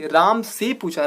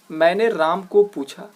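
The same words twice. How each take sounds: First: Slow, stress on राम in राम से पूछा; corrected form stressed. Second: Slow stress on को in मैंने राम को पूछा; wrong form read out slowly. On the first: Teacher gives the corrected sentence slowly. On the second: Teacher reads out the wrong sentence को slowly. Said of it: "तो मैंने राम को पूछा नहीं". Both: Shown as a demonstration.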